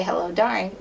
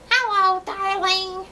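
First: Said in the usual way. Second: High, squawky parrot echo of Hello, darling. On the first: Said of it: "how to say". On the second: Pretend. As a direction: repeat it like a parrot. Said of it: "in a parrot voice".

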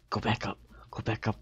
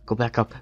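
First: Whispered urging, no voice. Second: Said in the usual way. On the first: Real, not acted. Gamer whispering to his avatar, hushed and voiceless. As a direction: breathe it out, urging the character on. Urging own character in game.

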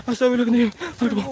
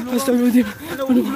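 Both takes have the same delivery.

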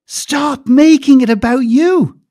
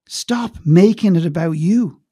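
First: "Stop making it about you" much louder, higher and very slow; loud repeat. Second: "Stop making it about you" said slowly, each word weighed; slow emphasis. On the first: Coach repeating to clients, louder and slower. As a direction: shout it out slowly. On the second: Coach telling clients, slow and firm. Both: Shown as a demonstration.

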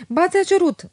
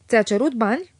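First: Much higher and louder, firm; firm, no arguing. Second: A touch of annoyance in the question; annoyed question. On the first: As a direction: state it with a tone that allows no reply. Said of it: "cu o intonație care n-admite replică". (Otilia insistă ferm, fără drept de replică) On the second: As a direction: ask with mild displeasure. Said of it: "întrebă supărată Otilia". (Otilia întreabă ușor supărată pe Felix) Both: A narrator's reading.

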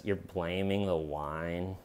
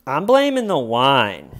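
First: Low, slow, quiet disbelief; incredulous deadpan. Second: Loud, swooping declaration; mock loud proclamation. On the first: Retold or imitated. Detective questions suspect's excuse, quietly incredulous. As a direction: question it softly and slowly, imitating an unimpressed detective. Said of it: "in that tone of voice". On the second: Suspect blames the wine to detectives, loudly proclaiming. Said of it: "you're loudly proclaiming that it was the wine".

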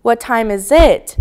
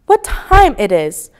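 First: Slow, careful "What time is it" as a model; patient correction of a learner's question; correcting word order. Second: Slow, careful learner asking "What time it is"; hesitant English learner's question; learner's wrong word order. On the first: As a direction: say "What time is it" slowly, with "is" before "it". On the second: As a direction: ask "What time it is" slowly, with "it" before "is". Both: A narrator's reading. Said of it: "Saya corrected her".

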